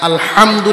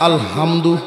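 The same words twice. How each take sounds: First: The h sound is harsh and made deep in throat. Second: The h sound is a plain, light breath. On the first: All praise is for God. The speaker calls it right. "এই জায়গায় আলহামদু না কইয়া" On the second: The meaning changes into something offensive. The speaker calls it wrong. "যদি কেউ কয় আলহামদু, ... খালি একটা জায়গা ভুল হয়েছে"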